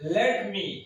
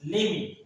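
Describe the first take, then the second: First: Both words are said fully and separately. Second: The words are blended into one short word.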